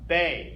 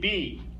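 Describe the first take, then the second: First: The letter is said with an 'ay' vowel. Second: The letter is said with an 'ee' vowel. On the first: This is the German letter name. "In German, it's pronounced Bay" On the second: This is the English letter name. "In English, we say B"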